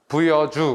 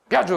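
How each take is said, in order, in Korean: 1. 보통의 느긋한 속도로 말해요. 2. 빠르게 말해서 음절이 합쳐져요.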